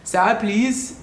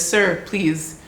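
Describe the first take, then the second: First: Higher South African accent attempt, rising at the end; tentative, put-on South African accent. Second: Said in the usual way. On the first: Shown as a demonstration. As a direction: try a South African "Sir, please". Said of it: "let me see, can I do the accent?". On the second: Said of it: "can I do the accent?".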